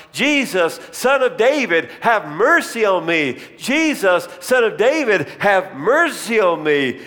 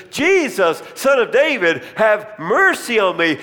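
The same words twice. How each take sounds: First: Raised, higher pleading cry to Jesus. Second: High, loud desperate plea; crying out louder. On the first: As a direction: call out over the crowd, begging. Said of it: "and I began to sh-, shout". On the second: Blind man shouting past the crowd, higher and louder. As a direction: cry out over the crowd trying to silence him. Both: Retold or imitated.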